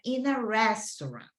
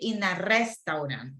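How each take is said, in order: First: Some sounds are reduced, English style. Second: Every letter is pronounced fully, Spanish style. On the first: The speaker calls it right. "She said" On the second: The speaker calls it wrong. "She didn't say"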